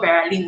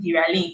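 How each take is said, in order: First: The first vowel sounds like 'eh'. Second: The first vowel sounds like 'eye'. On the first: The speaker calls it wrong. "it's not Veralin" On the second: The speaker calls it right. "that's the correct way to pronounce my name"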